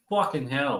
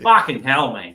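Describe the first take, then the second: First: Clipped English "Fucking hell", flat and quick. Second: Australian "Fucking hell, mate", louder, leaning on "Fucking"; Aussie fucking hell. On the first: Explaining English swearing to American viewers, English accent. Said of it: "So English will be like". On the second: Contrasting Aussie swearing for American viewers, Australian accent. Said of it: "The Aussies will be like". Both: Shown as a demonstration.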